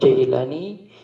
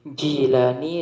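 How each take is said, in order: First: The first vowel sounds like 'ai'. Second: The first vowel sounds like 'ee'. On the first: "Bisa dibaca Jailani" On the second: "Jilani sama-sama bisa"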